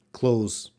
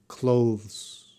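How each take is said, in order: First: "Close" with no TH, just a Z ending; cheat pronunciation. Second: "Clothes" with a slight TH before the final sound; proper TH. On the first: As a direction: say clothes as "Close", skipping the TH. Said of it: "if you need to cheat". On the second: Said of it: "there's a slight T H". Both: Shown as a demonstration.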